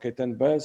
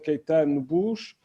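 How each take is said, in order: First: The name is said with English-style pronunciation. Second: The name is said with Portuguese pronunciation.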